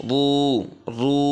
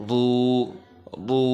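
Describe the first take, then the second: The two takes are said the same way.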